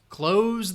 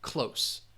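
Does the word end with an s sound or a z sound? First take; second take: z sound; s sound. First: The word ends with a buzzing z sound. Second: The word ends with a hissing s sound. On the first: It means to shut something. "That also sounds like clothes" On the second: It means near in distance. "that final S sound"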